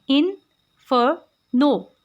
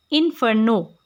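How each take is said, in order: First: inferno split into three separate syllables, pause after each. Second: Said in the usual way. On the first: Shown as a demonstration. Teacher showing three syllables, inferno said slowly in separated pieces. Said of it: "यानी three syllables". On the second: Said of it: "inferno में हमारे पास three syllables हैं".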